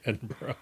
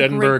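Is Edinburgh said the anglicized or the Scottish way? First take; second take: Scottish; anglicized. First: It is said with the Scottish pronunciation. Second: It is said with an anglicized pronunciation. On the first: It is the local way of saying it. The speaker calls it right. "Scottish people would rather you probably say Edinburgh" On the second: It is the American way of saying it. The speaker calls it wrong. "if you say it's Edinburgh, it's not like the end of the world in America, where anglicized pronunciations are always technically correct"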